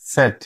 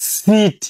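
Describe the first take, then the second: First: The vowel is short and lax. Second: The vowel is long and tense. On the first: The speaker calls it right. "উচ্চারণ হবে সেট" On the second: The speaker calls it wrong. "এটা ভুল ভুল উচ্চারণ"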